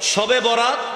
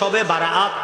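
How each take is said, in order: First: The term is said in the shortened local form. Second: The term is said in the fuller Arabic form. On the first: The speaker calls it wrong. "শবে বরাত এই শব্দটি ঠিক নয়" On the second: The speaker calls it right. "বলতে হবে শবে বারাআত"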